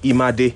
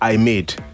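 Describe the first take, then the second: First: It is said as a name, not 'I made'. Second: It sounds like the English words 'I made'.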